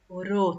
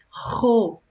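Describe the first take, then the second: First: The r is a soft, light tapped sound. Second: The r is a strong, rough throat sound. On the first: "Se eu colocasse um R só" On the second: "o som entre essas vogais é forte"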